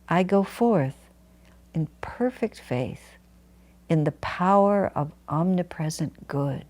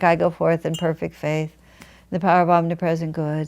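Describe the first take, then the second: First: It is said with strong energy and conviction. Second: It is said flatly, without energy or conviction. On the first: The words are said with full belief. The speaker calls it right. "you put every part of your consciousness behind the feeling" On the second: The words are recited without belief. The speaker calls it wrong. "not like"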